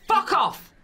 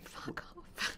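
First: It is said angrily. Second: It is said lovingly.

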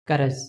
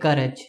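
First: The last consonant is a z sound. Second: The last consonant is a j sound. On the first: This matches the correct written form. "But the correct way of writing is this" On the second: This is how most people say it in everyday talk. "they will say courage. So instead of using this zaza, they will be using the other jaja"

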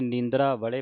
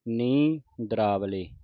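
First: A break follows 'neendra' before 'vale'. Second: A short break follows the first syllable 'nee'. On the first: The speaker calls it wrong. "ਪਰ ਇਸ ਤਰ੍ਹਾਂ ਨਹੀਂ ਪੜ੍ਹਨਾ" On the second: The speaker calls it right. "ਇਸ ਤਰ੍ਹਾਂ ਪੜ੍ਹਨਾ ਹੈ"

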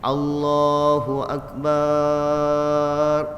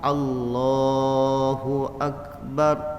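First: The phrase is stretched out slowly. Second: The phrase is said briefly and crisply. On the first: The speaker calls it wrong. "Jangan Allahu akbar nak cari niat" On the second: The speaker calls it right. "Maka waktu takbiratul ihram pun Allahu akbar"

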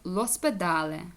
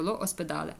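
First: The article's vowel is dropped and merged in. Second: The article keeps its own separate vowel sound. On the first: The speaker calls it right. "А так лоспедале" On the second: The speaker calls it wrong. "Некрасиво, ло оспедале"

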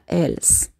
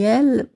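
First: The final s sound is pronounced. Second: The final s sound is silent. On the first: The speaker calls it wrong. "A gente não fala elles" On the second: The speaker calls it right. "A mesma fonética do singular"

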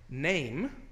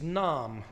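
First: The vowel sounds like 'ay'. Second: The vowel sounds like 'ah'. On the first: This is the modern pronunciation. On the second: This is the original pronunciation.

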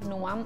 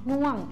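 First: The syllable is said with a high tone. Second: The syllable is said with a falling tone. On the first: "เป็นรูปโทแล้วก็เสียงตรี" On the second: "รูปเอกแต่เสียงโท"

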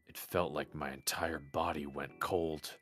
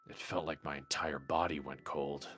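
No difference in how they are said.

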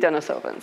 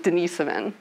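First: The name is said the local way. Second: The name is said the Russian way. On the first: "over here they say Denisova" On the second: "I pronounce it the European way"

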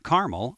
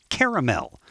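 First: Caramel is said the non-Southern, non-East Coast way. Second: Caramel is said the Southern and East Coast way. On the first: This is how other regions say it. "not caramel" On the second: This is how the South and East Coast say it. "The American South and East Coast put caramel"

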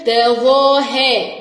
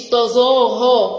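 First: The ظ is made with the tongue tip out. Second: The ظ is made without the tongue tip out. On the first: The speaker calls it right. "والظاء من الحروف اللي بنطلع فيها طرف اللسان" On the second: The speaker calls it wrong. "مش"

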